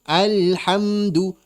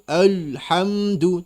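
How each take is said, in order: First: The L is pronounced thin and light. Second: The L is pronounced thick and heavy. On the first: The speaker calls it right. "harusnya gitu" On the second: The speaker calls it wrong. "menebalkan makhraj lam ... kesalahannya"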